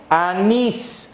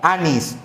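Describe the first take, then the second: First: The stress is on the last syllable. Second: The stress is on the first syllable. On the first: The speaker calls it right. "el acento está en nis" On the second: The speaker calls it wrong.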